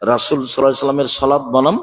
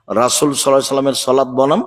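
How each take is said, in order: Both takes have the same delivery.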